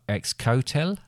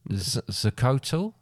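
First: The word starts with a 'ks' sound. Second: The word starts with a 'z' sound. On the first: The speaker calls it wrong. "Don't pronounce the X" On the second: The speaker calls it right. "But pronounce more of a Z"

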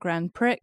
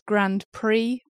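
First: The final x of Prix is pronounced. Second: The final x of Prix is silent. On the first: The speaker calls it wrong. "not Grand Prix, but I'm saying it as it's written" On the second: The speaker calls it right. "Apparently it's Grand Prix"

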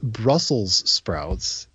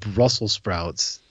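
First: The s at the end of Brussels is pronounced. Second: The s at the end of Brussels is dropped. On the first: The speaker calls it right. "They are called Brussels sprouts" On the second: The speaker calls it wrong. "and not Brussels sprouts"

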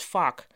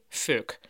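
First: The vowel is an open, a-like American sound. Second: The vowel is the Dutch u as in kruk. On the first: It tries to sound as American as possible. "proberen om hun fuck zo Amerikaans mogelijk te laten klinken en daarom iets zeggen dat klinkt als fuck" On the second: A cozy Dutch curse for small irritations. "mensen die gewoon fuck zeggen met de van kruk"

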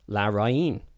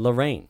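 First: The name has a Spanish pronunciation. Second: The name has an English pronunciation. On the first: The speaker calls it right. "is pronounced Larraín" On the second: The speaker calls it wrong. "rather than Lorraine, ... like Lorraine Kelly"

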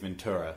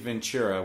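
First: The t is said as a clear t. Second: The t is said like a ch sound. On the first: This is the American way of saying it. "in the movies I noticed they said Ventura" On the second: This is the New Zealand way of saying it. "all my life I've said Ventura"

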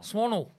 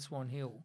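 First: The name is run together as one word. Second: The name is said as two separate words. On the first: The speaker calls it right. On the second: The speaker calls it wrong.

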